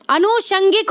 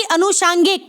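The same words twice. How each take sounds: First: अनुषंगिक with a short a in "shang"; short middle vowel. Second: अनुषांगिक with a long aa in "shaang"; wrong pronunciation. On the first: Teacher correcting the word for students, short shang. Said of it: "ना कि". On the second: Teacher admitting he said it wrong, long shaang. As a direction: stretch the middle of अनुषांगिक to shaang. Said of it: "मैंने भी गलत बोला". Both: Shown as a demonstration.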